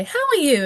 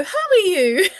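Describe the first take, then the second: First: Put-on higher, cheerful greeting to a child; greeting a child, pitched up; adult greeting. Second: High, louder mimic of a child echoing, with a laugh; imitating a child's exact echo, high and laughing. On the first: Shown as a demonstration. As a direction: ask it brightly like to a toddler. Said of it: "So you say". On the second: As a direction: parrot it back like a small child. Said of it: "And they go".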